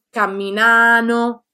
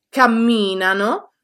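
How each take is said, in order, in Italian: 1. L'accento cade sulla terza sillaba. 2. L'accento cade sulla seconda sillaba. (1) "sono sbagliati" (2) "sono corretti"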